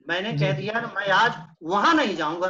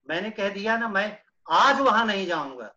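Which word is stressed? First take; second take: वहां; वहां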